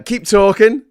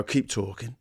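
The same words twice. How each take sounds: First: Said in the usual way. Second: Put-on Cockney tough guy; Cockney gangster voice. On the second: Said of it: "like, Cockney gangster voice".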